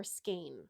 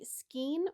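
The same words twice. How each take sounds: First: "skein" said as SKAYN; her usual pronunciation. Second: "skein" said as SKEEN; alternate pronunciation. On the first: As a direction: say "skein" with a long ay, rhyming with rain. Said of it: "I always say skein". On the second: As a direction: say "skein" with a long ee, rhyming with green. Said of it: "do you say skein or skein". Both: Shown as a demonstration.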